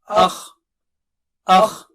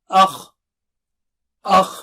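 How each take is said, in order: Both takes have the same delivery.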